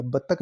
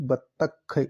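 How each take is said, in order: First: "बतख" ending in a plain k; quick "बतख" said as batak; "बतख" with no breath on the final k; wrong pronunciation. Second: "बतख" ending in aspirated kh; "बतख" with a breathy final kh released clearly; correct pronunciation. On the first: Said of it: "बतख नहीं". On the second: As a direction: sound out "बतख" as bat-takh. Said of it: "ये ख आएगा". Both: Shown as a demonstration.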